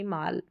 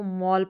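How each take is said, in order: First: The vowel is an open 'ah' sound. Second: The vowel is a rounded 'aw' sound. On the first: The speaker calls it wrong. "ना कि माल" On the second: The speaker calls it right. "यहाँ पर इसको मॉल पढ़ेंगे"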